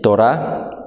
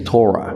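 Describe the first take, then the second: First: The word is pronounced with Spanish sounds. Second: The word is pronounced with English sounds. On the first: "in Spanish is Torah" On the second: "in English, I believe the right pronunciation is Torah"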